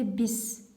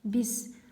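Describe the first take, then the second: No difference in how they are said.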